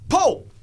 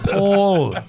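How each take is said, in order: First: The name is said with a short vowel. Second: The name is said with a long vowel. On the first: The speaker calls it wrong. "She's going" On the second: The speaker calls it right. "it's Paul"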